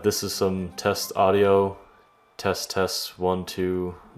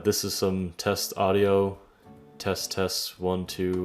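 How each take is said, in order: First: The voice has its mid frequencies boosted by EQ. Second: The voice is heard without any EQ applied. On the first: "say you wanted a little bit more mid-range" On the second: "without the E Q"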